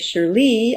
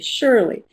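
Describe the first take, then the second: First: The stress is on the second syllable. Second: The stress is on the first syllable. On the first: The speaker calls it wrong. "I don't say Shirley" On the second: The speaker calls it right. "the first syllable is stressed. ... I say Shirley"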